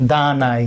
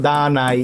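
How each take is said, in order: Both takes have the same delivery.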